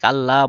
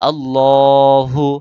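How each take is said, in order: First: The L sound is light and thin. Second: The L sound is heavy and thick. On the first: The speaker calls it wrong. "অনেক আল্লাহ বলে, এটা ভুল।" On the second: The speaker calls it right. "এখানে আল্লাহ ল মোটা করতে হবে।"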